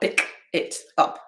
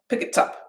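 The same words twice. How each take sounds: First: Each word is said apart from the next. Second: Each final consonant joins onto the next vowel. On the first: The speaker calls it wrong. "not pick it up" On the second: The speaker calls it right. "I move that into my next word"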